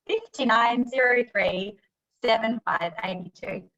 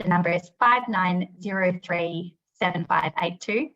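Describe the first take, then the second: First: Slow, laughing bingo caller call-out. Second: Said in the usual way. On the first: Pretend. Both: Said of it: "I'm a bit like a bingo caller".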